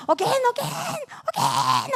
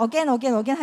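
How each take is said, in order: First: Put-on high, loud child's shouting; yelling child. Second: Put-on louder, repeated child's plea; insistent child. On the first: Dragon child yelling at mom who fell asleep, shouting. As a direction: shout it in escalating high-pitched demand. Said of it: "하면서 이제 막 소리 지르다가". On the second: Child keeps asking mom to read on, insistent. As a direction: keep pestering, louder. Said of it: "애가 계속".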